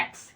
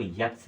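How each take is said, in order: First: एक्स starting on e, "eks"; X read cleanly as एक्स; correct letter-name एक्स. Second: यक्स with a y-glide, "yaks"; wrong letter-name यक्स. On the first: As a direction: say एक्स with no y-glide. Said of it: "क्या पढ़ना है". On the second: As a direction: misread X as यक्स. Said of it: "यक्स नहीं पढ़ना". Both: Shown as a demonstration.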